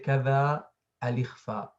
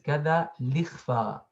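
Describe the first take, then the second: First: The hamza is pronounced as a glottal stop. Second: The hamza is dropped and its vowel moves to lam. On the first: The speaker calls it wrong. "We don't say" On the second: The speaker calls it right. "He used this dialect of saying this word to suit or and to fit the rhythm"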